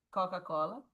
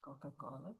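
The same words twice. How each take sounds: First: Said in the usual way. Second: "Coca-Cola" breathed low and soft with a rise; faint Coca-Cola. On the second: Shown as a demonstration. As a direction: drop to a near murmur.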